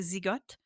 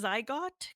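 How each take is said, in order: First: The name is pronounced the French way. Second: The name is pronounced the English way. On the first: "In French, we say Zigotte" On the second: "but it is Zygote Quarterly"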